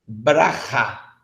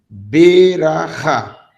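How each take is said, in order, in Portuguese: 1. A palavra é dita rápido, com a primeira vogal omitida. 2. A palavra é dita devagar, com a primeira vogal completa. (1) "você está lendo Berahá rápido" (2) "se eu for ler em câmera lenta"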